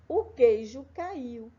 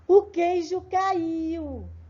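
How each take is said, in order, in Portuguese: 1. É dito num tom sério e neutro. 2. É dito num tom admirado e surpreendido. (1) "a Pro vai ler bem sério" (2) "a Pro vai ler de forma admirada a mesma frase"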